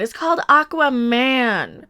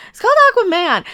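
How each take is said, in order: First: Said in the usual way. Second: CALLED jumps high and loud, exasperated; "called" punched up high, like stating the obvious; exasperated emphasis. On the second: Real, not acted. Repeats title, exasperated.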